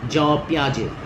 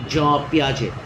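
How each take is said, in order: The two takes are said the same way.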